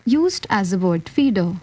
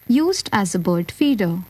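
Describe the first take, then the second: No difference in how they are said.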